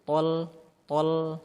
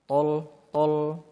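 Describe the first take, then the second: First: The l sound is thin and light. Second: The l sound is thick and heavy. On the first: The speaker calls it right. "tapi dia tol tol" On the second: The speaker calls it wrong. "jangan sampai lamnya tebal bunyinya"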